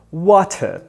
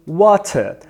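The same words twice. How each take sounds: The two takes are said the same way.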